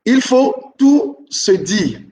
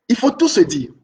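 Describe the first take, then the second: First: Very slow stress. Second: Said in the usual way. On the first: Shown as a demonstration. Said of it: "teacher repeats rule slowly". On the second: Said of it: "rule repeated at normal pace".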